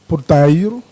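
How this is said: It is said with a European Portuguese accent. "um falante é, é, português é, poderia dizer porteiro"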